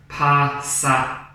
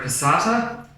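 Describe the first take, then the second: First: Slow, split passata; syllable clapping. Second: Said in the usual way. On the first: Shown as a demonstration. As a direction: clap pa-sa-ta slowly. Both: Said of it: "How many claps does that get".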